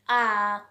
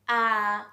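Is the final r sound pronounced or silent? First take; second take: silent; silent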